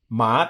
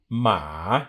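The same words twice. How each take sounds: First: The pitch rises from mid to high. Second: The pitch dips low and then comes up. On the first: It means hemp. "this is going from about a two to a five" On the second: It means a horse. "it's got a dip"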